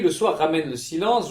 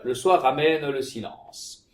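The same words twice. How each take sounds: First: The mute e sounds are dropped. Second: The mute e sounds are pronounced. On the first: The speaker calls it wrong. "J'oublie par exemple le muet" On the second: The speaker calls it right.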